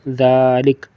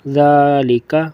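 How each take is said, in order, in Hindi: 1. यह शब्द सादे 'k' व्यंजन पर खत्म होता है। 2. यह शब्द छोटे 'a' स्वर पर खत्म होता है।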